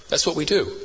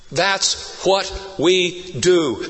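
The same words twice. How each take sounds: First: Said in the usual way. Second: "That's what we do" word by word, very slow; every word of "That's what we do" spaced out and driven home; emphatic slow repetition. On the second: Real, not acted. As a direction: punch each word of "That's what we do" separately. Repeats line slowly for emphasis.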